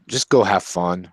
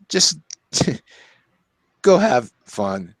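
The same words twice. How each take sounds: First: Said in the usual way. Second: Laughing. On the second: Real, not acted. Repeats the advice, laughing.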